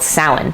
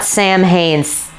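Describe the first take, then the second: First: The word does not sound like 'Sam Haines'. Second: The word sounds like 'Sam Haines'. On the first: The speaker calls it right. "that was called Samhain" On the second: The speaker calls it wrong. "it's not Sam Haines. You can't you can't call it that"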